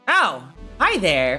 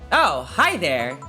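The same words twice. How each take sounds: First: It is said in a normal voice. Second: It is said in a deepened voice. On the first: The speaker calls it wrong. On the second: The speaker calls it right.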